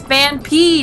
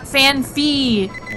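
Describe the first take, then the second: First: The second syllable starts with a p sound. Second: The second syllable starts with an f sound. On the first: The speaker calls it right. "It's Fanpee" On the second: The speaker calls it wrong. "not Fanfee"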